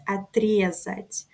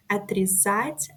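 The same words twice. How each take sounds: First: Отрезать stressed on the second syllable, отрЕзать; отрезать as the perfective, stress early. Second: Отрезать stressed on the last syllable, отрезАть; Отрезать as the imperfective, stress at the end. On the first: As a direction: hit the е in отрезать, a bit slower. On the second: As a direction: put the weight on the final а of Отрезать. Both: Shown as a demonstration. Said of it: "but the different stress".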